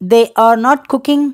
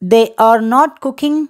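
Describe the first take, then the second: The two takes are said the same way.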